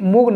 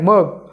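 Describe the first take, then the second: First: The vowel sounds like oo. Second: The vowel sounds like uh. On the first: The speaker calls it wrong. "नाही" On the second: The speaker calls it right. "यूचा उच्चार अ"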